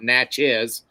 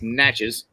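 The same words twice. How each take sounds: First: The name is said with an outsider's pronunciation. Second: The name is said with the local pronunciation. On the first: The speaker calls it wrong. "It's not Natchez" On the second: The speaker calls it right. "it's Natchez"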